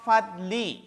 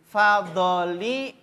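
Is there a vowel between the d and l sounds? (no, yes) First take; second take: no; yes. First: No vowel is spoken after the d sound. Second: A short vowel is spoken after the d sound. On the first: The speaker calls it right. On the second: The speaker calls it wrong. "Doknya fathah"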